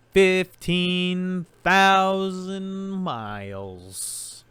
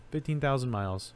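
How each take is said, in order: First: High, slow, drawn-out game show call; game show answer. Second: Said in the usual way. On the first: Acted. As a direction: stretch it out like a big reveal.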